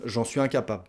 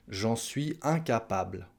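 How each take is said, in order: First: "incapable" said quickly as "incapab", L dropped; casual swallowed ending. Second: "incapable" articulated fully, final -ble sounded; careful full pronunciation. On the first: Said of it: "quand on parle vite, ça donne". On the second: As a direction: say every sound of "incapable", including the L. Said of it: "j'essaye de bien le prononcer". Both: Shown as a demonstration.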